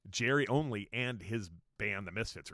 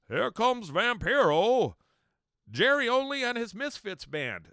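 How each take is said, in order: First: Said in the usual way. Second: Over-the-top arena announcer shout; ring announcer. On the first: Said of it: "So he actually said that, like". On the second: Retold or imitated. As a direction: bellow it like a wrestling ring introduction. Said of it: "the announcer's out there saying".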